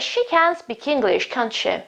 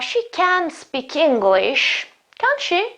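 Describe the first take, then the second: First: The voice falls at the end of the tag. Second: The voice rises at the end of the tag. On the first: The speaker is sure and expects agreement. "I'm sure of it, and I'm just stating" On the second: The speaker is unsure and wants a real answer. "This is a real question"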